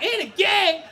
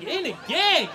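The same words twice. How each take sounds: First: Very high, loud shriek of disbelief; shocked mom. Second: Higher, startled echo; incredulous question. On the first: Mom hearing her son is accused, shocked. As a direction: echo it as an aghast mother. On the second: Son echoing his dad's accusation, incredulous question. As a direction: repeat it in disbelief. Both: Acted.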